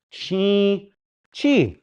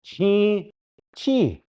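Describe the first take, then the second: Both takes have the same delivery.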